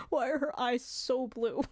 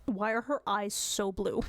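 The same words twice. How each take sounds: First: 1 amused wonder. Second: Said in the usual way. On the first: Real, not acted.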